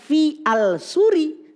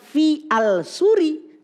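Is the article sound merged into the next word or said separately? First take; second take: separate; separate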